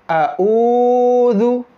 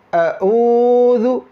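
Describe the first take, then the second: The two takes are said the same way.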